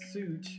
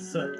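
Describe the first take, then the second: First: The word sounds like the word suit. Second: The word does not sound like suit. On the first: This is one player's way of saying it. "Daniel pronounces it suit" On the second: This is the usual Midwest way of saying it. "a lot of us are in the Midwest are used to soot"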